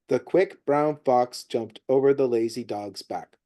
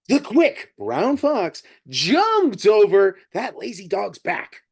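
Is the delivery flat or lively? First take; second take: flat; lively. First: It is read in a flat, monotone cadence. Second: It is read with lively, varied expression. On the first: "That's pretty monotone and simple little cadence" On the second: "That's the difference"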